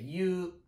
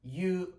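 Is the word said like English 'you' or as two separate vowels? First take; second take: like you; like you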